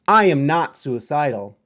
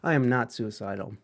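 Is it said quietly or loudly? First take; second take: loudly; quietly. First: It is said loudly and intensely. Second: It is said quietly.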